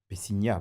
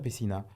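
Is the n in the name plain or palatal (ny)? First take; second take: palatal; plain. First: The n is a palatal ny sound. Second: The n is a plain n sound. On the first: The speaker calls it right. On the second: The speaker calls it wrong.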